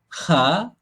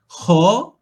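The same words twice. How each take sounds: First: The kha is light, tongue not raised. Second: The kha is heavy, tongue raised high. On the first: The speaker calls it wrong. "kalau bunyi kha, kha, kha lidah kita tak terangkat" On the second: The speaker calls it right. "Kha, kita punya lidah kita akan terangkat ke atas"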